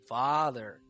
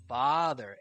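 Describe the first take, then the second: First: It sounds full, with air from deep inside. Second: It sounds full, with air from deep inside.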